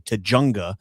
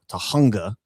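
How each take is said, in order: First: The middle consonant is a J sound. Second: The middle consonant is an H sound. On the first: The speaker calls it wrong. "She would say Tujunga because she doesn't understand that's a Spanish word" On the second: The speaker calls it right. "the J sound is actually an H sound"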